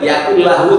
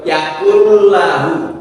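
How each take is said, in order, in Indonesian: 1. Bunyi l dihentikan tiba-tiba. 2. Bunyi l dialirkan setengah harakat. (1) "Jadi bukan yakullahu" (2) "kalau membaca lam itu harus dialirkan"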